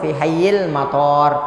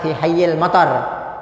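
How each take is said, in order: First: The marked vowel is held long. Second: The marked vowel is said short. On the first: The speaker calls it right. "yang betul ... panjang toknya di sini" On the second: The speaker calls it wrong. "banyak yang bi- biasa bilang"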